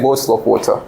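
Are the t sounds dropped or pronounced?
pronounced. The t sounds are clearly pronounced. It is the proper way of speaking in public. "when they are outside at the home, they will say"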